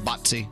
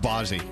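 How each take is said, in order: First: The name is said with an Italian pronunciation. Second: The name is said with a plain English pronunciation.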